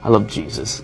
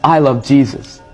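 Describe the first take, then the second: First: It sounds insincere, betraying the words. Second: It sounds sincere and loving.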